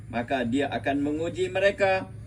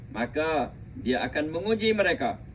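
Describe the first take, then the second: Both takes have the same delivery.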